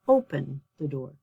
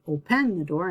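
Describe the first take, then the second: First: The stress is on the first syllable of open. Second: The stress is on the second syllable of open. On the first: The speaker calls it right. "So my stress is on the first syllable" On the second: The speaker calls it wrong. "I'm not going to"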